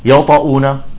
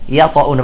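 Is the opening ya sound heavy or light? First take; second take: heavy; light. First: The opening ya is heavy and thick. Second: The opening ya is light and thin. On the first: The speaker calls it wrong. "بعضهم يقول" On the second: The speaker calls it right. "يجب عدم تفخيمها إذا جاء بعدها حرف مفخم"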